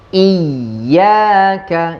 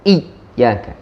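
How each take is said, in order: First: The y is firm but not fully stopped. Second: The y sound is pressed to a full stop. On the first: The speaker calls it right. "Kita keras di huruf ya, tapi bukan sampai tutup" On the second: The speaker calls it wrong. "Kenapa kita sampai tutup?"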